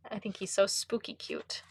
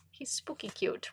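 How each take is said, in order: First: Said in the usual way. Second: Hushed, breathless whisper on "He's spooky cute". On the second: Shown as a demonstration. To viewers about the card, a playful whisper.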